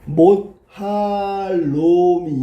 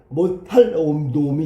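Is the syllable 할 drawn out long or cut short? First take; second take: long; short. First: The syllable 할 is drawn out long. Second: The syllable 할 is cut off short. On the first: The syllable-cutting mark is absent. "절음부호인 얘가 없으면" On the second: The syllable-cutting mark is present. "얘가 있으니까"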